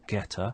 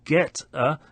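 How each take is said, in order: First: The consonant links straight into the vowel. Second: The two words are said separately.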